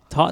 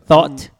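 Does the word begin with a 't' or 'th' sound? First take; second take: t; th. First: The word begins with a hard t sound. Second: The word begins with a soft th sound. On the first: "Like a tot?" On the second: "I don't know how you pronounce that because it's a TH"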